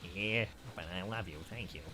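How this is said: It is said in a Ralph Wiggum voice.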